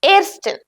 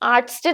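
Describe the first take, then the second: First: The first vowel is an 'eh' sound. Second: The first vowel is an open 'ah' sound. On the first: The speaker calls it right. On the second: The speaker calls it wrong.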